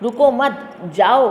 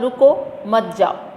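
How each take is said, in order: First: The pause comes after 'mat'. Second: The pause comes after 'ruko'.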